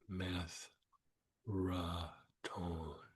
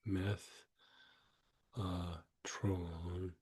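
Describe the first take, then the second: First: The middle syllable is a full 'ra' sound. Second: The middle syllable is a weak 'uh' sound. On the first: "I use myself meth, ra, tone" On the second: "you can say meth, uh, tron"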